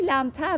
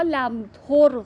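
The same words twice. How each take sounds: First: "لمتر" said lamtar, an A in the last syllable; lamtar with fatha. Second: "لمتر" said lamtor, an O in the last syllable; lamtor with zamma. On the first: Teacher quoting the word to students, "لمتر" pronounced lamtar. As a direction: say "لمتر" as lam-TAR, with a fatha. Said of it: "ولی اینجا با فتحه هم قافیه است". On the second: Teacher showing the other common reading, "لمتر" pronounced lamtor. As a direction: say "لمتر" as lam-TOR, with a zamma. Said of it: "یا دو تا تلفظ داشته". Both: Shown as a demonstration.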